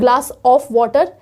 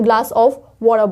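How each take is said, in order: First: The word 'of' is pronounced fully and clearly. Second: The word 'of' is swallowed into a weak sound. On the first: The speaker calls it wrong. "हम glass ऑफ water नहीं बोलते हैं" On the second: The speaker calls it right. "हम glass ऑफ water बोलते हैं"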